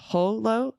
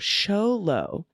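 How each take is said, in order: First: It begins with a guttural H sound. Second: It begins with an SH sound. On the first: The speaker calls it wrong. "the X in Spanish is generally pronounced somewhat like a guttural H" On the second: The speaker calls it right. "X is often pronounced more like the English S H"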